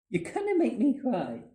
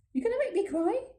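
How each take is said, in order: First: "make me cry" starting high and falling; falling statement. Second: Very high, rising "make me CRY?"; high voice lifting at the end of "cry"; high-pitched question. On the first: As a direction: let "cry" drop at the end. Repeats line as falling statement. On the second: Repeats line as high question. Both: Acted.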